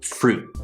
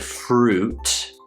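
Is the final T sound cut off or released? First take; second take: cut off; released. First: The final T is cut off, unreleased. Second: The final T is fully released. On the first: The speaker calls it right. "we say fruit, So that cutoff sound" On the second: The speaker calls it wrong. "we don't say fruit"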